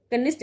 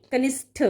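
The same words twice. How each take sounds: First: कनिष्ठ ending in a dry ṭ; wrong unaspirated ending. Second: कनिष्ठ ending in a puffed ṭh; correct aspirated ending. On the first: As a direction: say कनिष्ठ as kanisṭ, no breath. (कनिष्ठ के अंत में ट की ध्वनि) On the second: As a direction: say कनिष्ठ as kanisṭha, with breath. (कनिष्ठ के अंत में ठ की ध्वनि) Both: Shown as a demonstration. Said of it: "नहीं".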